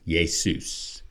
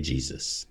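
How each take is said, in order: First: "Jesus" said as yay-soos; Greek pronunciation. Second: Said in the usual way. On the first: Shown as a demonstration. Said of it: "from the Greek Iesus". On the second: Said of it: "That's where we get Jesus".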